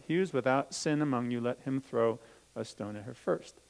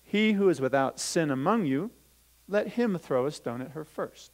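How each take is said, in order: First: Said in the usual way. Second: Louder, lifted scripture reading; Bible reading voice. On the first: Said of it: "Do you know what a sin is?". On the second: Acted. Teacher reading Jesus' words to the children, lifted reading voice. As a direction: proclaim the verse to the class. Reads scripture, then repeats it.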